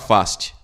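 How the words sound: The name is said in an American accent. "pronúncia americana"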